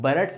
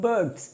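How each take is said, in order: First: The R sound is clearly pronounced. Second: The R sound is left silent. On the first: The speaker calls it wrong. "बर्ड्स नहीं बोल रहा हूं" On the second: The speaker calls it right. "बर्ड्स बोल रहा हूं"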